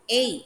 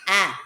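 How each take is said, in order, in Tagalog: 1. Ang letra ay binibigkas sa pangalan nito. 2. Ang letra ay binibigkas sa tunog nito. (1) "Pangalan ng letra ulit" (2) "Ang tunog ng letter A ay A"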